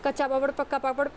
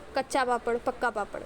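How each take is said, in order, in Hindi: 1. यह तेज़ और हड़बड़ी वाली गति में बोला गया है। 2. यह धीमी और सावधानी वाली गति में बोला गया है। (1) "मैं ये स्पीड में बोलने लगूँ" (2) "आप लोग सिंपली सही सही वर्ड बोलो"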